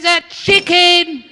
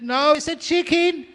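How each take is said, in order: First: High, loud, drawn-out mock shriek; hammed-up yelling. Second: Very high, comic insistence; mock squabbling. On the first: Wife at the peak of a silly quarrel, hammed-up shrieking. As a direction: screech it slowly in comic outrage. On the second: Wife fires back at husband over the bird, squeaky mock insistence. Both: Acted couple's escalating argument.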